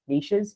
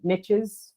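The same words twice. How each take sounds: First: The word is said with an Irish pronunciation. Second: The word is said with an American pronunciation. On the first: The speaker calls it right. "we say niches because we pronounce it properly" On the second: The speaker calls it wrong. "we don't say niches"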